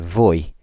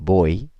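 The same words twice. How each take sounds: First: The first sound is a v sound. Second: The first sound is a b sound. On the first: This is how it is said in most other Spanish-speaking places. "if you went to Mexico or or most other places that are Spanish speaking, you'd hear" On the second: This is how it is said in Spain. "in Spain is pronounced like a B"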